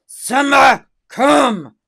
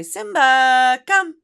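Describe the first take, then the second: First: Loud, high call of the dog's name; a firm loud recall; commanding call. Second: High, loud sing-song call of the dog's name; pleading call. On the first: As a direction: call the dog sharply. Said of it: "your tone of voice when you say". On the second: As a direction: coax the dog with a high voice. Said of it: "is not the same as when you say". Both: Shown as a demonstration.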